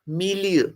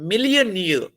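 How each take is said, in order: First: The middle vowels glide together into one sound. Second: The middle vowels are said as separate sounds. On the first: The speaker calls it wrong. "ये क्या बन जाएगा? ... तो वो तो wrong pronunciation हो जाएगी" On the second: The speaker calls it right. "मी अलग बोल रहे हैं, ली अलग बोल रहे हैं और श्वा को अलग बोल रहे हैं, इकट्ठा नहीं बोल रहे हैं"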